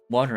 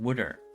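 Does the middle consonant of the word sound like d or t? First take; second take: t; d. First: The middle consonant is a clear t sound. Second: The middle consonant is a soft d sound. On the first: "regional accent accents, like water" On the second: "It's a Philly thing to say apparently"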